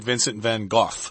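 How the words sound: The name is said with a British pronunciation. "if you're in England, I think they say Vincent Van Gogh"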